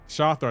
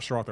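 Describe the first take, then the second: First: The name starts with sh and no r after it. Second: The name starts with sh followed by an r. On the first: The speaker calls it right. "Shathra, not Shrathra, my bad" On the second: The speaker calls it wrong. "not Shrathra"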